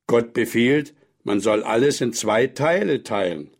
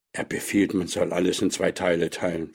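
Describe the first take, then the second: First: Put-on old man instructing. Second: Subdued, thoughtful repetition; child repeating. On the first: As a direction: state it as a firm commandment. (nachdrücklich belehrender Alter) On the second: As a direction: echo the lesson softly to yourself. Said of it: "wiederholte Petja". (leise, nachdenklich wiederholend) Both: A narrator's reading.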